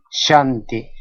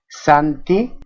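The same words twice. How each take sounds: First: "shanti" opening on sh, not s. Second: Said in the usual way. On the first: Shown as a demonstration. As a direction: say "shanti" with a hushed sh onset. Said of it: "en algunos casos como sha". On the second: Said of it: "Esta suena sa".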